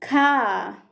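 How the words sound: British accent, the final R is silent.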